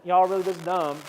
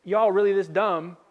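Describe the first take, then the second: First: Put-on southern twang; southern accent. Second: Southern-tinged exasperated question; southern accent. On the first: Jesus scolding his disciples, in a southern accent. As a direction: lean into a mock southern accent. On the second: Retold or imitated. Jesus to his dense disciples, in a southern accent. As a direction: ask it with a southern twang. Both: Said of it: "I think Jesus had a southern accent".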